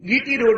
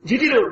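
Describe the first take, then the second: First: The first letter starts with a hard g sound. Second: The first letter starts with a j sound. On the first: The speaker calls it wrong. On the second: The speaker calls it right.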